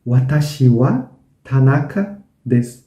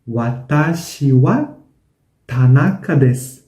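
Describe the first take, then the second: No difference in how they are said.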